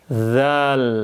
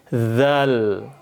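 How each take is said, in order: Both takes have the same delivery.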